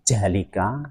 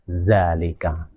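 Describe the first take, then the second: First: The word begins with a j sound. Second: The word begins with a light dh sound. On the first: The speaker calls it wrong. "tidak boleh dibaca jalika" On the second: The speaker calls it right. "bacanya harus zalika"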